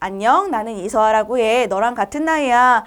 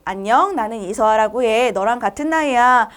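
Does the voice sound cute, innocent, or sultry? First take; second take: innocent; innocent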